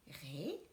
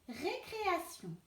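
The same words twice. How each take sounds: First: Récréation said quietly as ré-cré-a-tion; quiet teacher splitting Récréation; soft syllable split. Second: Said in the usual way. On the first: Shown as a demonstration. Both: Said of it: "couper le mot".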